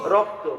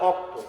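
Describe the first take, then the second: First: The word begins with an r sound. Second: The word begins without an r sound. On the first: This is the standard form of the word. "এটা ধরে বলেন রক্ত" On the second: This is how people in one region say it. "ওই রংপুরের এলাকায় বলে অক্ত"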